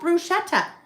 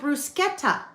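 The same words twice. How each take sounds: First: The middle consonant is a sh sound. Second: The middle consonant is a sk sound. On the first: The speaker calls it wrong. "you'd think that was a sh" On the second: The speaker calls it right. "It's called bruschetta"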